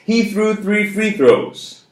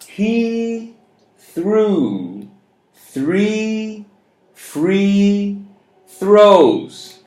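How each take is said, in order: First: The sentence is spoken very fast. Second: The sentence is spoken at a moderate pace.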